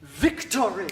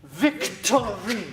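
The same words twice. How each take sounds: First: "Victory" in firm, separated syllables; staccato. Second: "Victory" stretched slowly, each syllable separate. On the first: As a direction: stitch "Victory" together, syllable by syllable. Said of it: "so we're going forehead, thigh, heart". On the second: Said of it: "syllable by syllable, very methodically". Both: Shown as a demonstration.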